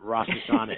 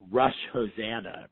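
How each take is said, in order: First: The second word sounds like 'Hashanah'. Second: The second word sounds like 'Hosanna'. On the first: The speaker calls it right. "Not Rosh Hashanah" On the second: The speaker calls it wrong. "I remember calling it Rosh Hosanna"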